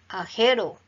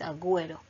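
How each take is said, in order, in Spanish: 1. La u es muda, y produce un sonido parecido a la 'h'. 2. La u se pronuncia después de la g. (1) "Si no lo colocáramos quedaría ajero" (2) "entonces agüero"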